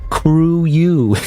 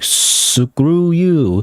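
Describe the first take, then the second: First: The word starts without any s sound. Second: The word starts with a clear s sound.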